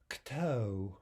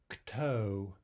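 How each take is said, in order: Both takes have the same delivery.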